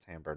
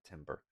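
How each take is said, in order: First: The first vowel sounds like the vowel in 'tam'. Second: The word sounds like 'timber', as in wood. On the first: The speaker calls it right. "it's pronounced timbre" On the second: The speaker calls it wrong. "not timber"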